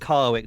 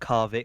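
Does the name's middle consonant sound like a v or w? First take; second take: w; v. First: The middle consonant sounds like a w. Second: The middle consonant sounds like a v. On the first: The speaker calls it wrong. "I'm going to call him Carwick" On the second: The speaker calls it right. "not Carvick"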